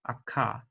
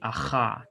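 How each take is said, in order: First: The consonant is a hard stop sound. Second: The consonant is a raspy throat fricative. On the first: "it has the hard pronunciation" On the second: "with the uvular, the voiceless uvular fricative"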